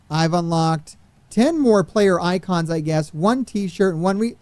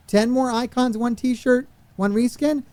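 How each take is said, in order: First: Said in the usual way. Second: Pitched higher, disbelieving; exasperated recap. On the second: Real, not acted. Streamer recapping the meagre unlocks to chat, exasperated. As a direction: repeat the list as if it's an insult.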